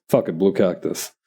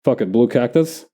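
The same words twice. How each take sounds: First: "blue cactus." said firmly with a falling tune; "Fuck it, blue cactus." settled, softer and falling; decisive statement. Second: "blue cactus?" with a questioning upward rise at the end; "Fuck it, blue cactus?" asked as a tentative question, rising; asking tune. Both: Shown as a demonstration.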